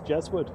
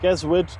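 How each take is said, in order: First: The word begins with a J sound. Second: The word begins with a hard G sound.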